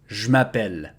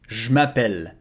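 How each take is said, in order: First: The E in 'je' is dropped, contracted. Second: The same.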